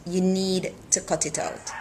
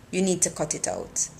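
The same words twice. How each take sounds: First: "You" punched first, falling tune after; stress on you. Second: Need leaned on, falling at the end; stress on need. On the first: Repeating the warning to Kira, stress on "You". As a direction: hit "You" hard, then fall away. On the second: Telling Kira to stop, weight on "need". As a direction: press the word "need", then let it drop. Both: Acted.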